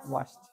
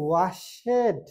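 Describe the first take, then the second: First: ওয়াশড ending in a "t", "washt"; correct ed as "t". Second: ওয়াশেড slow, with a full "ed" syllable; wrong ed as "ed". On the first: Teacher gives the class the right form, ওয়াশড. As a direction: say ওয়াশড as one syllable. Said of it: "হবে কি". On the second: Teacher slowly shows students the mistake, ওয়াশেড. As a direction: drag out ওয়াশেড the wrong way, "wa-shed". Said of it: "আমরা বলি ওয়াশেড". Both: Shown as a demonstration.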